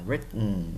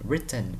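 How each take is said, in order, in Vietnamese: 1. Âm t ở giữa bị nuốt. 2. Âm t ở giữa được phát âm đầy đủ. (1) "người Mỹ họ đọc là written" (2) "bạn thích written cũng được"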